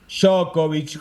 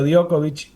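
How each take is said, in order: First: The J is not said like a Y. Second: The J is said like a Y. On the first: The speaker calls it wrong. "Yo antes le decía Djokovic" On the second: The speaker calls it right. "ahora le digo Djokovic"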